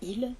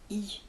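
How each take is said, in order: First: The l sound at the end is pronounced. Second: The l sound at the end is dropped. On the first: "Au lieu d'entendre ils viennent demain, ils" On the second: "on entend i"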